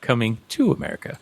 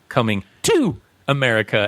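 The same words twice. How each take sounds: First: The word 'to' is unstressed and plain. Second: The word 'to' is strongly stressed and loud. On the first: It refers to the original film. "and not" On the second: It refers to the sequel. "you had to scream it or yell it so that people would know"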